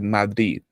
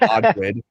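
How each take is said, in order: First: The final D is not pronounced. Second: The final D is clearly pronounced. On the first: "as if like the the second D is silent" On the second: "instead of Madrid"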